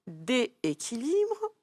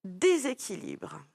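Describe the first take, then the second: First: "dééquilibre" with no S sound, vowels run together, said slowly; drawn-out "dééquilibre", é straight into é; wrong form. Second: "déséquilibre" with a clear z sound between the é's, said slowly; slow "déséquilibre", dé-zé linked; right form. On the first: Teacher offers the pupil the wrong form "dééquilibre", slow and clear. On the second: Teacher gives the pupil the right form "déséquilibre", slow and clear. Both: Shown as a demonstration. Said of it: "Est-ce qu'on dit".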